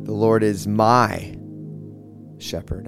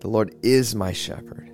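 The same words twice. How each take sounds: First: The stress is on the word my. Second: The stress is on the word is.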